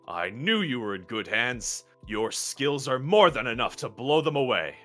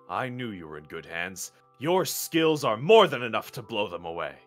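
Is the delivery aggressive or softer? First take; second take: aggressive; softer. First: It is delivered in an aggressive tone. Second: It is delivered in a less aggressive tone.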